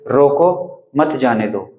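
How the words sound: The pause comes after the first word. Stop him, do not let him go. "यहाँ पर हमने रोको के बाद में अल्प विराम लगाया है।"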